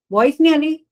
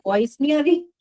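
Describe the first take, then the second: First: Louder and higher, pressing the words; repeated louder. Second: Said in the usual way. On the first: Real, not acted. Teacher repeats to online students who can't hear, louder. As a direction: say it again so they hear you.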